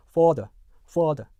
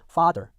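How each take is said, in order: First: FATHER said like "fodder", rounded o in front; British rounded vowel. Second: FATHER as "fah-der", open ah, R at the end; American pronunciation. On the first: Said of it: "오른쪽 같은 경우는요". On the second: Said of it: "미국 영어 같은 경우는요". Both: Shown as a demonstration.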